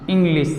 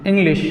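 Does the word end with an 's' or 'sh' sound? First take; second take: s; sh. First: The word ends with a plain 's' sound. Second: The word ends with an 'sh' sound. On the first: The speaker calls it wrong. "कुछ लोग बोलते हैं इंग्लिश, यानी इस तरह से इंग्लिश ... ये गलत है" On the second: The speaker calls it right. "इंग्लिश यानी ताले विषा"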